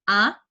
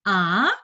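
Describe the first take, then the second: First: The rising syllable is kept short. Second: The rising syllable is drawn out long. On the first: The speaker calls it right. "Jadi pendek aja" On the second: The speaker calls it wrong. "jangan panjang-panjang. Misalnya A, jangan"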